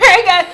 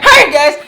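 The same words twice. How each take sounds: First: The greeting sounds relaxed and ordinary. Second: The greeting sounds startled and freaked out.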